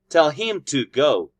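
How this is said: Him and to are stressed, in strong forms. "If I emphasize those two words"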